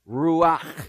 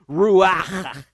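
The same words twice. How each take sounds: First: The word has a moderate breathy sound. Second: The word has an exaggerated, heavy breathy sound. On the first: The speaker calls it right. "You can't say that properly without a strong sound of breath" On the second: The speaker calls it wrong. "not really that. That's overemphasizing"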